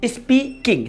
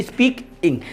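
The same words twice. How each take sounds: First: "speaking" broken in two as स्पी-किंग; split into syllables. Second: "speaking" broken late as स्पीक-इंग; split into syllables. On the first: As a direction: pause after the स्पी in "speaking". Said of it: "यहाँ पर टू syllable होंगे". ("Speaking" को स्पी-किंग, दो हिस्सों में तोड़कर) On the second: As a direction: pause after the क sound, before the final इंग of "speaking". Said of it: "यहाँ पर डबल सिलेबल होंगे". ("स्पीकिंग" को स्पीक-इंग, रुककर दो हिस्सों में) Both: Shown as a demonstration.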